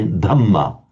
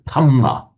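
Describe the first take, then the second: First: The word is said in the standard way. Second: The word is said in a Thai way. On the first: The speaker calls it right. "the Thais can't say Dhamma" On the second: The speaker calls it wrong. "it comes out as a Thamma"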